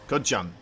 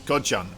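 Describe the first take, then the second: The two takes are said the same way.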